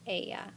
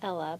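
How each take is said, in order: First: The middle consonant is a Y sound. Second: The middle consonant is an L sound. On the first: It means she. The speaker calls it right. "those double L's say ya" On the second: It sounds like a person's name. The speaker calls it wrong. "Make sure you don't say Ella because that's a very popular name"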